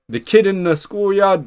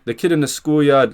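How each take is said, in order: First: It is said in an American accent. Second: It is said in his normal accent.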